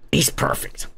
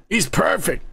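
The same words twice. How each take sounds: First: Much lower, softer, breathy rumbling imitation; deep actor voice. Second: Said in the usual way. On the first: Praising the casting in the actor's much lower voice. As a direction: growl it low like the giant villain. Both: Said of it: "He's got a fucking deep ass voice".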